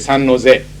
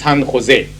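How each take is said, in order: First: The name is said with an American English pronunciation. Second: The name is said with a Spanish pronunciation. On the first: "most Americans say San Jose" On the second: "it's a Spanish name, It should be pronounced San Jose"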